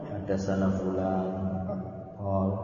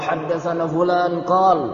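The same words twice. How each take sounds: First: It is said weakly, with low, drowsy energy. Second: It is said with lively, high energy. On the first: The speaker is tired and disheartened. "Kayak lemas, ngantuk" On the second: The speaker is in his usual eager mood. "Yang biasanya"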